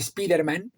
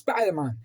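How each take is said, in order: First: The name is said with Spanish sounds. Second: The name is said with English sounds. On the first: This is how people in Spain have always said it. The speaker calls it wrong. "Sabemos que no se pronuncia así" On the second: This is how the name is meant to be said. The speaker calls it right. "Sabemos de sobra que es Spider-Man"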